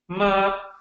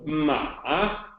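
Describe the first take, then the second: First: It is said with the first tone. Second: It is said with the third tone. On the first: It means mother. "first tone would be ma" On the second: It means a horse. "Third tone"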